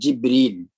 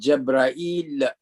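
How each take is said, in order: First: The first vowel is i, then a long ee. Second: The first vowel is a, then a-i before l. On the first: This is the form used in the Hijaz dialect. "in the languages of Al-Hijaz, it is called Jibreel" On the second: This is the form used by the Qais and Tamim tribes. "in the language of uh, the tribe of Qais and Tamim"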